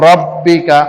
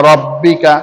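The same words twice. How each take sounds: No difference in how they are said.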